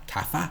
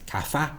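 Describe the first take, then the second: The two takes are said the same way.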